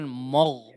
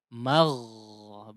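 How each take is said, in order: First: The vowel after the m is a rounded o. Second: The vowel after the m is an open a. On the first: The speaker calls it wrong. "jangan mogh, mogh tidak ya" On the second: The speaker calls it right. "Magh baru huruf ghain ya"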